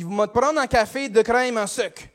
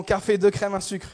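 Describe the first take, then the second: First: Broad Québécois café order; Québécois accent. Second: Said in the usual way. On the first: Acted. Customer orders coffee from the cashier, Québécois accent. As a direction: order as a Québécois regular would. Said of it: "je vais faire un accent".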